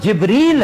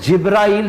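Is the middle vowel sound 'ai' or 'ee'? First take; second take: ee; ai. First: The middle syllable has a long 'ee' vowel. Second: The middle syllable has an 'ai' vowel sequence. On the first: The speaker calls it right. "ये लफ्ज जिब्रील है" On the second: The speaker calls it wrong. "ना अलिफ है इसमें, ना इसमें कहीं भी हमजा का गुजर है"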